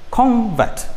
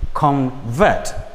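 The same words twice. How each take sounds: First: The stress is on the first syllable. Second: The stress is on the second syllable. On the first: It names a thing. "This is a noun" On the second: It names an action. "Then as a verb, it changes to convert"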